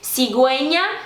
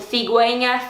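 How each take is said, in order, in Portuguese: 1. O primeiro som consonantal é como um s sibilado. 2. O primeiro som consonantal é como o th do inglês. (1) "é o som que nem do nosso S forte" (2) "na Espanha ... tipo T H do inglês"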